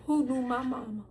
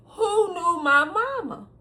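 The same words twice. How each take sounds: First: Said in the usual way. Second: "mama" drawn out and emphatic; slow, pointed repeat landing hard on "mama"; higher, stretched emphasis on "mama"; stress on mama. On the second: Real, not acted. Corrective repeat contrasting mama with daddy.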